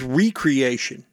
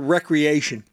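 First: The first vowel is a long E sound. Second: The first vowel is a short E sound.

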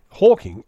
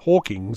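First: The name ends without an s sound. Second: The name ends with an added s sound. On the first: The speaker calls it right. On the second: The speaker calls it wrong.

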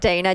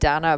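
First: The name is said in an American way. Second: The name is said in a non-American way. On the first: "when I speak to Americans, it's like Dana" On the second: "I pronounce it Dana"

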